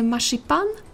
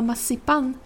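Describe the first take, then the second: First: The middle consonant sounds like 'sh'. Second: The middle consonant sounds like 's'. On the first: This is the standard Swedish pronunciation. "как мы бы сказали в титульном произношении с буквой «ш»" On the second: This is the Småland dialect pronunciation. "вместо «ш» она произносит «с»"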